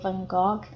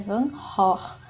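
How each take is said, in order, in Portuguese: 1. Os sons do g são duros, como um g. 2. Os sons do g são guturais, como um r rascado.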